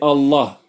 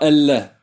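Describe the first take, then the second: First: The L sound is heavy and deep. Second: The L sound is light and thin. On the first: The speaker calls it right. "On dit Allah. Et tafrim, c'est pour le ta'zim" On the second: The speaker calls it wrong. "On ne dit pas Allah"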